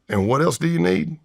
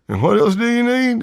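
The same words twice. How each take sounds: First: The voice is lower and relaxed. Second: The voice is higher and tight. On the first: The speaker calls it wrong. "it's not that clear" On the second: The speaker calls it right. "With a higher pitched voice, my throat's tighter"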